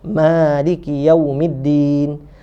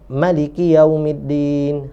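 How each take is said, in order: First: The first vowel of Maliki is long. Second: The first vowel of Maliki is short. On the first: This follows the usual local reading of the verse. "Hak biasa eh kitanya" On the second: This follows a variant reading of the verse. "qiraat yang tak baca panjang"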